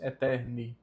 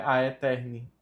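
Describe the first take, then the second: First: "eterni" beginning on E alone; silent A. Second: "a eterni" with an extra A up front; sounded A. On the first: Teacher explaining the A is mute, E alone. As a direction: say only eh-TEHR-nee for "eterni". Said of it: "nós só pronunciamos eterni". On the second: Teacher warning against this form, A pronounced. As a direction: voice A and E separately in "a eterni". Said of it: "não é a eterni". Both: Shown as a demonstration.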